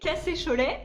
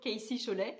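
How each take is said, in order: First: The initials are read with French letter names. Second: The initials are read with English letter names. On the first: "en français, c'est un petit peu euh, moche" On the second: "dans ma tête, c'était toujours"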